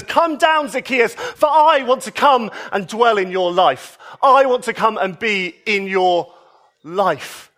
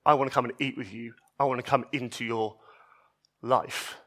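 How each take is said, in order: First: High, ringing call of come down; joyful call. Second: Much softer, lower, gentle offer; tender invitation. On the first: Jesus calling up to Zacchaeus in the tree, joyful and ringing. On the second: Jesus to the outcasts and sinners, soft and tender. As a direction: offer it quietly, like to a frightened person. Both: Retold or imitated.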